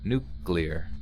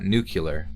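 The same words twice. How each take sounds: First: The word is said with two syllables. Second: The word is said with three syllables. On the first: The speaker calls it right. "So it's just like two syllables" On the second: The speaker calls it wrong. "not nuclear"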